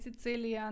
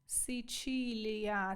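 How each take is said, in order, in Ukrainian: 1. Середній приголосний звучить як 'ts'. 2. Середній приголосний звучить як 'ch'.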